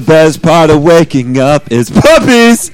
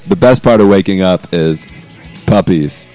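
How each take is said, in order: First: It is said emphatically, with more energy. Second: It is said flatly, without emphasis.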